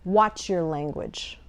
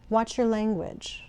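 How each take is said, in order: First: It sounds stern and warning. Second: It sounds calm and advising. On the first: The listener is in trouble for what they said. "When a mother says that, you know you're in trouble" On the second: The listener is being given helpful advice. "If someone is coaching you ... Slightly different tone"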